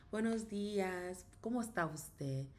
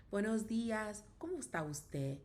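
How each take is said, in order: Both takes have the same delivery.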